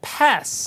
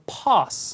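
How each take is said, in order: First: It is said with an American accent. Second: It is said with a British accent. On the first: "pass 하지 않고" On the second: "영국 발음으로 pass 합니다"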